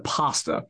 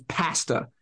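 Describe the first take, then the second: First: "pasta" with an open ah; "pasta" with first vowel as in father; American pronunciation. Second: "pasta" with a short a as in cat; flat-A "pasta", first vowel like apple; Canadian pronunciation. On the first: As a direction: say "pasta" as PAH-sta. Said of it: "says pasta instead of". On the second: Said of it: "every Canadian I've ever come across says". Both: Shown as a demonstration.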